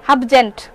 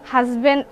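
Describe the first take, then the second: First: The word is garbled as 'habjent' with sounds swapped. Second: The word is pronounced the standard way, 'husband'.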